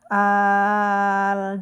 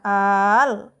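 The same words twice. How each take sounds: First: The long vowel is held level without a jolt. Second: The long vowel is pushed out with a sharp jolt. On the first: The speaker calls it right. "Tapi bacanya al, datar" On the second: The speaker calls it wrong. "jangan dihentak ... salah itu"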